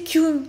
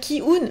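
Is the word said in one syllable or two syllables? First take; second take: one syllable; two syllables. First: The word is said as one syllable. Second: The word is split into two syllables. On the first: The speaker calls it right. "il faut prononcer Kyun et pas Ki-un" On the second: The speaker calls it wrong. "t'as envie de dire Ki-un"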